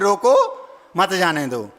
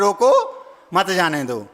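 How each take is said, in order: First: The pause comes after 'roko'. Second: The pause comes after 'roko'.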